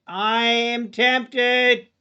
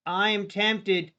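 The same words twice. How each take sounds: First: TEMPTED stretched slow and louder; a longing, drawn-out tempted. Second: Said in the usual way. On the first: Real, not acted. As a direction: draw out the word tempted, savoring it.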